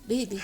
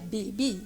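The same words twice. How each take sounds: First: It is said lightly, with just the lip tips. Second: It is said fully, with heavy lip movement. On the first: The speaker calls it right. "juste du bout des lèvres" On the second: The speaker calls it wrong. "c'est pas baby"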